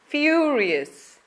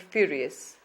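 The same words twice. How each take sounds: First: The first vowel is stretched out long. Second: The first vowel is short, not stretched. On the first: The speaker calls it right. "Remember to stretch it ... but furious" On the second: The speaker calls it wrong. "not call it furious"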